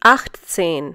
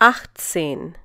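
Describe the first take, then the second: No difference in how they are said.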